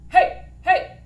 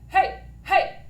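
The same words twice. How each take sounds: The two takes are said the same way.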